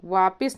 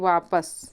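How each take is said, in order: First: The second syllable has an 'i' vowel. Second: The second syllable has an 'a' vowel. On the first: The speaker calls it wrong. "नहीं होता" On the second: The speaker calls it right. "बल्कि वापस"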